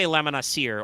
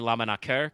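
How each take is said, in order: First: The middle consonant is a soft S sound. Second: The middle consonant is a hard K sound. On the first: "you can do a soft C" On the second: "because it's Latin, hard C"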